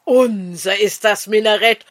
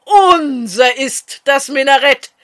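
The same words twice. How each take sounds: First: Mildly jubilant first cry; a touch of triumph. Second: Loud triumphant cheer; exultant, louder victory cry; jubilant shout. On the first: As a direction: start the victory chant, still holding back. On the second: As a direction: crow the victory out at full voice. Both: A narrator's reading. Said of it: "So jauchzten die Schiriner".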